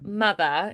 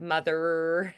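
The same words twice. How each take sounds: First: The R sound is soft and barely held. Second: The R sound is strong and held long. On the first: The speaker calls it right. "the R's are softer" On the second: The speaker calls it wrong. "holding on an R, because that's not very pretty"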